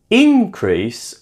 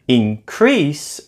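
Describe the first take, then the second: First: The stress is on the first syllable. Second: The stress is on the second syllable. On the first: It is a noun. "is a noun" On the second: It is a verb. "is a verb"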